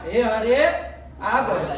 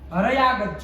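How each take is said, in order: First: The words are said with a pause between them. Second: The words are run together without a pause.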